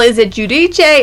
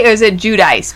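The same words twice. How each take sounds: First: Giudice said "joo-dee-chay"; Italian-style pronunciation. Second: Giudice said "joo-dice"; Americanized pronunciation. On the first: Host asking which name is right, Giudice as "joo-dee-chay". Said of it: "Then they started saying Giudice". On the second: Host offering the older version, Giudice as "joo-dice". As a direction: make Giudice rhyme with dice. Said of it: "it was Giudice for a long time". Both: Shown as a demonstration.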